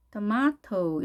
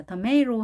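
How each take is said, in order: First: British tomato, tuh-MAH-toh with a clear T; British style. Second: American tomato, tuh-MAY-roh with a flapped T; American style. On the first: Teacher showing the second way, British tomato as tuh-MAH-toh. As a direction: say tomato in British English, long AH. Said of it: "영국식 발음인데요". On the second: Teacher naming the American style, tomato as tuh-MAY-roh. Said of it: "아메리칸 스타일이고요". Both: Shown as a demonstration.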